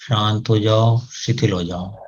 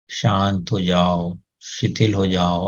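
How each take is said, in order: First: Calm command, fading. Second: Slow, softer soothing words; slow soft calming command. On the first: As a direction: let the words sink away. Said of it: "आदेश दें उनको". (शांत आदेश जो धीमा पड़ता जाए) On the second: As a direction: quietly settle the nose. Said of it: "नाक को बोलें". (धीमा नरम शांत आदेश) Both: Shown as a demonstration.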